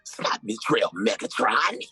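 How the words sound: It is said in a deep, menacing villain voice. The speaker calls it wrong. "I was going to do it even like Megatron"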